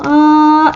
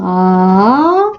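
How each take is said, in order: First: The pitch stays high throughout. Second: The pitch starts low and rises. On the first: "거성" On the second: "상성"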